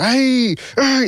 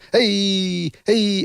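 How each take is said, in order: First: It is said louder and more aggressively. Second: It is said more quietly.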